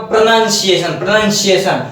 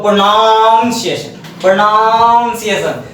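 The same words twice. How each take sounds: First: प्रोनंसिएशन said "pra-nan-si-e-shan"; short "nan" in प्रोनंसिएशन, repeated for the class; model pronunciation. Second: प्रोनाउंसिएशन with a long drawn-out "naaun"; mispronunciation. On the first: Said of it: "बोलना एक बार". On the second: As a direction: stretch the "naun" of प्रोनाउंसिएशन mockingly. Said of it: "इसको भी बोलते हैं". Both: Shown as a demonstration.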